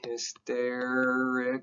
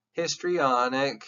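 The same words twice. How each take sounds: First: Drawn-out Hysterical, each syllable distinct; slow clear Hysterical. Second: Drawn-out histrionic, each syllable clear; slow clear histrionic. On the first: Teacher to class, spelling out Hysterical slowly. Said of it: "It should sound a little bit like that". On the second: Teacher to class, pronouncing histrionic slowly. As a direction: say histrionic slowly, matching it to Hysterical. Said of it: "That should sound like the word hysterical". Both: Shown as a demonstration.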